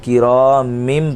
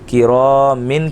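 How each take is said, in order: First: The word ends with an m sound. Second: The word ends with an n sound. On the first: The speaker calls it right. "किरामिम पढ़ा जाएगा" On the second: The speaker calls it wrong. "किरामिन की जगह"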